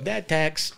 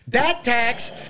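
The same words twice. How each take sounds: First: It is said softly, with toned-down energy. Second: It is said loudly, with blaring energy.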